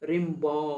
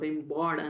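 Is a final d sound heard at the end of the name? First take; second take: silent; pronounced. First: The name ends on a vowel with no d. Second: The name ends with a clear d sound. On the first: The speaker calls it right. "ಕೊನೆ ಲೆಟರ್ಸ್ ಈಗ ರಿಂಬಾ ಅಷ್ಟೇ ಹೇಳೋದು" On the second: The speaker calls it wrong. "ರಿಂಬಾಡ್ ಅಂತ ಹೇಳಲ್ಲ"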